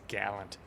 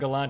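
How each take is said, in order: First: It is said with the guessed British pronunciation. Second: It is said like the car model name. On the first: This is how British speakers would say it. "I bet you the British say it's Gallant" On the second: This is how the speaker has been saying it. "I've been saying Gallant because of the Mitsubishi"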